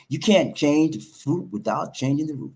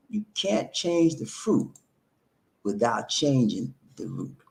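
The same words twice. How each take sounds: First: Said in the usual way. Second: Slower, softer, each word weighed; slow emphatic repeat. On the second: Shown as a demonstration. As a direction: repeat it slowly so it sinks in. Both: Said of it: "I'm gonna say it again".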